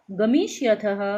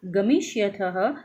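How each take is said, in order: First: Said in the usual way. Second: गमिष्यथः drawn out slowly, each syllable clear; slow recital. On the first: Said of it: "एक बार और उच्चारण कर लेते हैं". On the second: Shown as a demonstration. Teacher slowly reciting गमिष्यथः for the class. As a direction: spell out गमिष्यथः carefully, rising at the end. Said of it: "इसी तरह से मध्यम पुरुष में".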